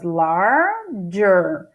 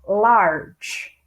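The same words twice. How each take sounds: First: "larger" split into two drawn-out syllables, lar-ge. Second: "Large" said as a single syllable, no vowel after the g; one syllable. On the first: Teacher voicing a learner's mistaken reading, two syllables. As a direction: break "larger" in two, first half rising. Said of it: "ah, tem duas sílabas". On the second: Teacher correcting the syllable count, one syllable. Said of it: "uma palavra de uma sílaba só". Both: Shown as a demonstration.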